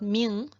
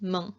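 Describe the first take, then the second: First: The vowel is long. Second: The vowel is short. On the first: The speaker calls it wrong. "It's not" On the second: The speaker calls it right. "this one is also a short E"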